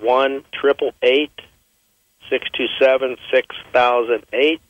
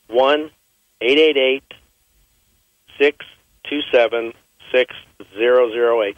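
First: The number is said at normal speed. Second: The number is said slowly, in chunks.

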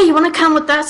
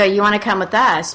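First: The invitation sounds cheerful and lively. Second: The invitation sounds somber and serious.

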